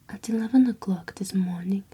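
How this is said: It is read in an attempted British accent. The speaker calls it wrong. "I'm gonna try to read this thing in um, an accent"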